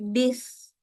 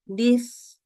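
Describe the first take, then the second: No difference in how they are said.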